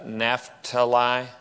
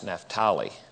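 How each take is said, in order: First: It is said in the familiar English pronunciation. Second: It is said in the guides' foreign-style pronunciation. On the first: This is how the speaker's own community says it. "we say Naphtali" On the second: This is how the guides say it. "it's Naphtali"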